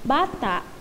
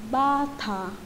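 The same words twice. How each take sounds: First: The word ends with a glottal stop. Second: The word ends openly, without a glottal stop. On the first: It means a child. "yung may sign na glutal" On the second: It means a house dress. "ang ibig sabihin ay house dress"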